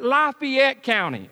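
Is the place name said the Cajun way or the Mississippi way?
Cajun. The name is said in the Cajun Louisiana way. The speaker calls it wrong.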